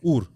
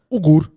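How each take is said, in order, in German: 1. In der Mitte wird kein g-Laut ausgesprochen. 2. Ein g-Laut wird in der Mitte ausgesprochen. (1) "das G ist dumm. Du musst nur U R sagen" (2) "Sein Lehrer hat drei Jahre konstant"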